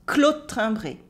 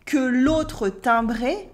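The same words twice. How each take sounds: First: Second "que l'autre timbré" shortened to "klot timbré"; cut vowels. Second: First "que l'autre timbré" with every vowel sounded; careful "que l'autre timbré", que and autre complete; full pronunciation. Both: Shown as a demonstration. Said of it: "So she really cuts some vowels".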